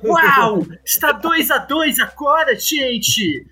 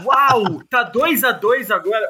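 First: It is said in a dramatic announcer-like voice. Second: It is said in his normal speaking voice.

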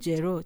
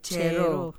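First: The name begins with a voiced j sound. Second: The name begins with a voiceless ch sound. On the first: The speaker calls it wrong. "Not Jero" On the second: The speaker calls it right. "Calls me Chero"

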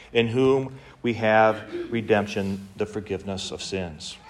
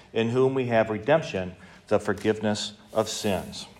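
Both takes have the same delivery.

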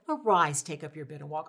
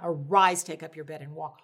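First: It is said quietly and meekly. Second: It is said loudly with firm authority.

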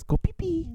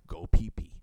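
First: It is said in a high, girly voice. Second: It is said in a normal speaking voice.

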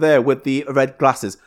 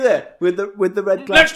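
First: It is said in the speaker's natural voice. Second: It is said in a put-on character voice.

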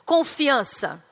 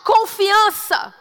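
First: It is said at normal volume. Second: It is said loudly and forcefully.

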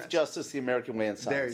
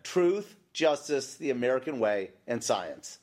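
First: The phrase is spoken quickly. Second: The phrase is spoken slowly.

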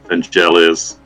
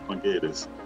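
First: The name is said in an English way. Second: The name is said in a Greek way. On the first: The speaker calls it wrong. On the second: The speaker calls it right.

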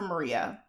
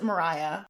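First: The middle syllable sounds like 'ree'. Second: The middle syllable sounds like 'rye'. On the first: This is the way the speaker chooses to say it. "I'm going to call her Maria" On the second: This is a common way others say it. "A lot of people pronounce it Mariah"

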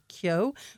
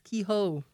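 First: The name is said as 'Kyo'. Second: The name is said as 'Kehoe'. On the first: This is how it is said in North Wexford. "in North Wexford, everyone says Kyo" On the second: This is how it is said near Wexford town. "as you move towards Wexford town, it's Kehoe"

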